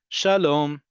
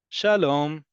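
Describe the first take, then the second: No difference in how they are said.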